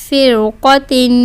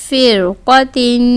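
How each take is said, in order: No difference in how they are said.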